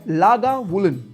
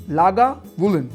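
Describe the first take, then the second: No difference in how they are said.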